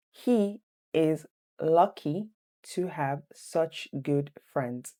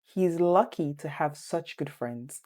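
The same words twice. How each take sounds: First: Very slow, chunked quiz reading; slow, deliberate dictation for students. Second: Said in the usual way. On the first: Shown as a demonstration. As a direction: break it into two slow halves for learners. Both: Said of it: "Number two".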